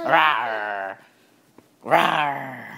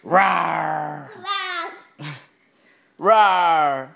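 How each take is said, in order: First: Playful lion rawr, slightly low; lion roar. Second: Pirate-style rawr, getting louder. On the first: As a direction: roar like a little lion for the baby. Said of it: "King of the jungle". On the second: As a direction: growl it like a playful pirate. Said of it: "Sound like a pirate". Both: Pretend.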